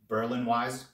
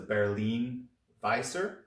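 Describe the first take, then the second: First: The name is said in a casual anglicized way. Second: The name is said in a German-style way. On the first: This is what most people call it. The speaker calls it wrong. "that's not how you're supposed to say it" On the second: This is the proper name. The speaker calls it right. "is the most proper name"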